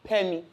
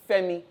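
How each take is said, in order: First: The name begins with a P sound. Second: The name begins with an F sound. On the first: The speaker calls it wrong. "not Pemi" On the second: The speaker calls it right. "my name is Femi"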